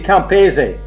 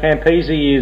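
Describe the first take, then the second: First: The name is pronounced the Italian way. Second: The name is pronounced the English way. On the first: This is the family's original pronunciation. "it should be Campese. / the Italian pronunciation. / Exactly, that's how you should say it" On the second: This is how most people say it. "Campese is what most people say"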